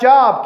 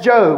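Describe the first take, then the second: First: The vowel is short, as in 'job'. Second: The vowel is long, as in 'robe'. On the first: The speaker calls it wrong. "I know it looks like Job" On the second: The speaker calls it right. "but that's Job"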